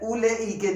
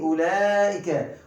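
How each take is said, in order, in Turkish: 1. Kelimede bir w sesi telaffuz edilir. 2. Kelimede hiçbir w sesi telaffuz edilmez. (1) "Bakın ulaike değil" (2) "Burada vav okunmuyor"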